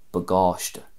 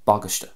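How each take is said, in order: First: The stress falls on the end of the word. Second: The stress falls on the start of the word. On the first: "I'm putting more of an emphasis and stress on the end of the word" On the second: "there's more of an emphasis emphasis at the start of the word"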